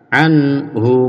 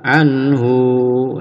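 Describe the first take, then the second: First: The final vowel is held one short beat. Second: The final vowel is held long. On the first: The speaker calls it right. "yang betul anhu satu ketukan" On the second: The speaker calls it wrong. "ini biasanya dipanjangkan ya oleh para pemula"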